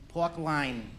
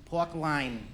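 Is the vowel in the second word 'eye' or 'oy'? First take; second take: eye; eye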